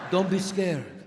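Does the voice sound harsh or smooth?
smooth. Said in a smooth, seductive Italian accent. It sounds romantic and calming. "God damn, that's a sexy Italian accent"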